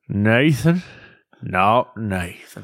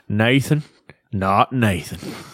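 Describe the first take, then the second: First: It is said slowly and low in a drawl. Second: It is said quickly with a nasal twang. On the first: "Can give a nice slow Southern draw too" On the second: "That's your Kentucky accent"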